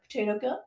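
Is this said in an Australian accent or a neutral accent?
neutral. It is said in the speaker's usual accent.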